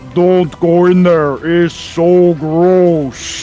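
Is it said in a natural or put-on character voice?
put-on. It is said in Lokag's large character voice.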